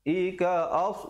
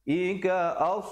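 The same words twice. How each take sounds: The two takes are said the same way.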